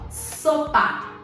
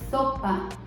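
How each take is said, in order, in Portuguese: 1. O s é um som claro, sibilante. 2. O s é ceceado, com a língua entre os dentes. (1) "com a boca desse jeito" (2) "Se eu coloco a língua entre os dentes"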